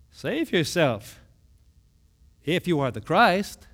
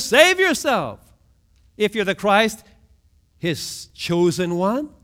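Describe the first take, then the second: First: Mild mocking taunt; scoffing. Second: Mild hammed-up jeer; mocking taunt. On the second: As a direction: throw the taunt up at him. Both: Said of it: "they're scoffing".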